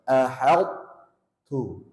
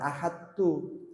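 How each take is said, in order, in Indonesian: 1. Bunyi t-nya tebal dan berat. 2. Bunyi t-nya tipis dan ringan. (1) "to-nya tetap terasa tebal" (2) "Jangan ahad tu, ringan"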